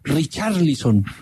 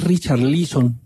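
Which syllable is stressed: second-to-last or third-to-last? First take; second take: third-to-last; second-to-last. First: The stress is on the third-to-last syllable. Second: The stress is on the second-to-last syllable. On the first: "Yo lo digo esdrújula" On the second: "O no sé si es Richarlison"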